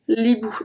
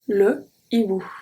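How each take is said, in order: First: The article's vowel is dropped and joined on. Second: The article's vowel is kept as a separate word. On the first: The speaker calls it wrong. "I can't say l'hibou. That doesn't work" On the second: The speaker calls it right. "We say le hibou"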